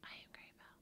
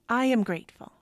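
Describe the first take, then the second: First: It is said flatly without conviction. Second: It is said with strong conviction.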